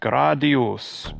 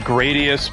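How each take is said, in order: First: The name is said with Japanese-style pronunciation. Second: The name is said with English-style pronunciation. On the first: "if you want to pronounce it in Japanese" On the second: "I always say Gradius"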